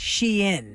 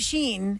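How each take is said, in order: First: The name is said as two syllables. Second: The name is said as one syllable. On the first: The speaker calls it right. "It is officially" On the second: The speaker calls it wrong. "people call it Sheen"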